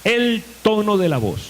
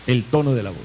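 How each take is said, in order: First: "el tono de la voz" lifted and projected; emphatic announcement. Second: "El tono de la voz" repeated lower and settled; calm low restatement of "El tono de la voz". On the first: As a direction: call out the heading "el tono de la voz" with raised pitch. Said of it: "uno de ellos es". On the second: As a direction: say "El tono de la voz" again, dropping the pitch. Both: Shown as a demonstration.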